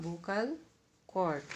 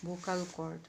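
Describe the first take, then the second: First: "vocal" rising, pause, then "cord" falling; word-by-word answer. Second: Said in the usual way. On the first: Shown as a demonstration. Teacher answering own question for students, word by word.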